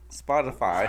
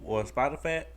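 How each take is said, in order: First: Said in the usual way. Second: Spotify said as "Spotifat", last vowel flattened to "a"; slipped pronunciation. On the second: Real, not acted. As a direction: end Spotify on "fa" as in fat. Slip, echoed by laughing co-host, then corrected.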